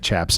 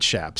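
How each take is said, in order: First: The word begins with a 'ch' sound. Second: The word begins with an 'sh' sound. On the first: The speaker calls it wrong. "You get in trouble in Lubbock if you say Chaps" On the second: The speaker calls it right. "It's Chaps with it's it's S H"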